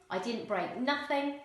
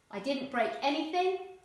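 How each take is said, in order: First: "I didn't break nothing" said casually; casual dialect, "break nothing"; non-standard English. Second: Said in the usual way. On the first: Shown as a demonstration. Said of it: "non-standard English". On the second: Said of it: "Standard English".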